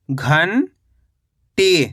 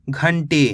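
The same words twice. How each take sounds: First: घंटी as long rising "ghan", pause, "tee"; split syllables. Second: Said in the usual way. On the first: Shown as a demonstration. Teacher breaking down घंटी for learners, split syllables. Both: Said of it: "तो मिलके बन जाएगा".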